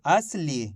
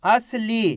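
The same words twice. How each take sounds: First: असली lower, falling on ली; read-back. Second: असली with a long, held ली; sounding out. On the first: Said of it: "तो मिलके बन गया अपने". (असली, नीचे सुर में समापन) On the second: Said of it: "ली बोलेंगे". (असली, आख़िरी ली को खींचकर) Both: Shown as a demonstration.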